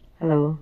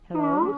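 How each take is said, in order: First: The voice sounds natural without any effect. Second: The voice is pitched up like a chipmunk. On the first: "yan yung normal kong voice" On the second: "naging chipmunk naman ako ngayon"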